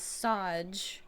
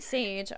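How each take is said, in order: First: It does not sound like English sage. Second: It sounds like the English word sage. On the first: It is the name's actual pronunciation. The speaker calls it right. "how you're actually supposed to pronounce this is Sage" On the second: It is only the translation of the name. The speaker calls it wrong. "I was saying Sage all last stream"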